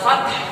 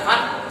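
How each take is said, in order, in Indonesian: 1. Kata itu berakhir dengan bunyi h yang terdengar setelah t. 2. Kata itu berakhir dengan t tanpa bunyi h. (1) "Yang betul adalah fath" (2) "Berhenti di ta, fath salah"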